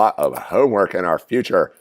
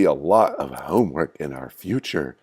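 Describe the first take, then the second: First: It is said in a plain, ordinary voice. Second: It is said in an eerie, spooky voice. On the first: The speaker calls it wrong. "I didn't make my voice very eerie or spooky" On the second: The speaker calls it right. "Let me try that again"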